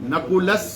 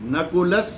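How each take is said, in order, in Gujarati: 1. આ શબ્દ s અવાજથી પૂરો થાય છે. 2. આ શબ્દ s અવાજથી પૂરો થાય છે.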